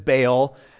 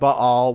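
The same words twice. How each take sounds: First: The name is said the anglicized English way. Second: The name is said the Hebrew-like way. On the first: "The anglicized version is Baal" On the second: "in Hebrew, it probably sounds like Baal"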